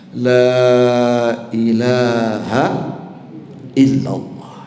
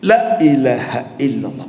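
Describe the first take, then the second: First: The vowel of the first word is held long. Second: The vowel of the first word is cut short. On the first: Nothing deserves worship except God. The speaker calls it right. "Maka panjangkanlah dua harokat minimal" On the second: Truly every object of worship is God. The speaker calls it wrong. "mengucapkan la-nya pendek"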